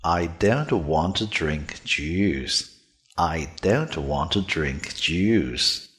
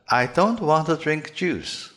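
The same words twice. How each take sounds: First: "I don't want to drink juice" slow and low, with voiced d, dr and j; "I don't want to drink juice" with buzzing d, dr and j, drawn out; "I don't want to drink juice" low and deliberate, with fully voiced consonants. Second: "I don't want to drink juice" higher, with t, tr and ch unvoiced; "I don't want to drink juice" the typical wrong way, consonants devoiced; "I don't want to drink juice" with hard voiceless t, tr and ch. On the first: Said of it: "我要求你改成浊辅音". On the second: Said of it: "很可能会读成". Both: Shown as a demonstration.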